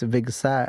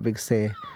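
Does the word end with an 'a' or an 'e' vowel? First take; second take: a; e. First: The word ends with an 'a' vowel. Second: The word ends with an 'e' vowel. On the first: The speaker calls it right. "being careful that it's Vigsa" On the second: The speaker calls it wrong. "and not Vigse"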